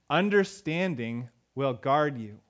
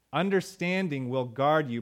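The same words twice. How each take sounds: First: "Understanding will guard you" spoken slowly, each word weighed; slow reading. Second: Said in the usual way. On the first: Shown as a demonstration. Pastor quotes Proverbs slowly to the congregation. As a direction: lay the verse down slowly and deliberately.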